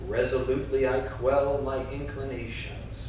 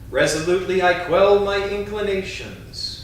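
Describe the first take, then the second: First: It is spoken in a whisper. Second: It is spoken in a strong, loud voice. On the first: "Now in a whisper" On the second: "first in a strong voice"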